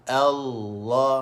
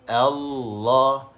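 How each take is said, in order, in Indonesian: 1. Vokal pembukanya ringan dan nipis. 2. Vokal pembukanya ringan dan nipis.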